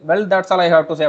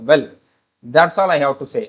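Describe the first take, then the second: First: It is said continuously with no pause after well. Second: There is a short pause after well. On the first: The speaker calls it wrong. "கண்டினியூஸா நம்ம சொல்ல மாட்டோம்" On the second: The speaker calls it right. "ஒரு gap விடுவோம், ஒரு pass கொடுப்போம்"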